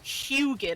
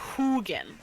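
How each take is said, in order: First: The first syllable sounds like hue. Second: The first syllable sounds like who. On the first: The speaker calls it wrong. "like Huey or Houston" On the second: The speaker calls it right. "Like like who who are you?"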